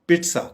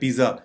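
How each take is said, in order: First: The middle consonant is a ts sound. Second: The middle consonant is a z sound. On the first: The speaker calls it right. "Correct pronunciation है पिट्सा" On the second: The speaker calls it wrong. "आमतौर पे हमारे यहां इसको बोला जाता है पिज्जा"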